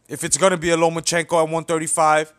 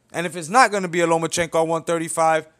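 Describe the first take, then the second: First: Gonna leaned on, the rest rolling on; stress on gonna. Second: "not" punched, the rest quick; stress on NOT. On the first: Vlogger laying out Mikey Garcia's options, stressing gonna. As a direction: hit "gonna" as the condition. Weighing Lomachenko at 135. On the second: Vlogger contrasting Garcia's other option, punching not. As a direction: hit "not" hard to flip the case. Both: Real, not acted.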